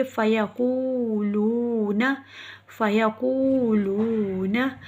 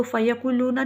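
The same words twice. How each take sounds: First: फ़यक़ूलूना slowly, each ū held long; slow recitation, right. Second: फ़यक़ूलूना rushed with short vowels; quick short reading, wrong. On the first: Teacher shows the right slow फ़यक़ूलूना. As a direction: stretch every ū in फ़यक़ूलूना. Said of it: "बल्कि पढ़ेंगे". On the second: Teacher shows the wrong rushed फ़यक़ूलूना. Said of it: "नहीं पढ़ेंगे". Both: Shown as a demonstration.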